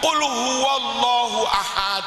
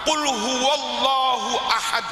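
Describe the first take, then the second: First: The second vowel of ahad is drawn out slightly. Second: The first letter of ahad is pressed, vowels short. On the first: The speaker calls it wrong. "ya kan agak panjang" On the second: The speaker calls it right. "langsung tekan huruf pertama"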